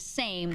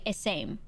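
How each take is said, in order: First: The word starts directly with the S sound. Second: An extra vowel sound comes before the S. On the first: "instead of saying same" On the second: "They pronounce the S like E S"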